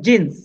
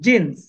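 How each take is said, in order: Both takes have the same delivery.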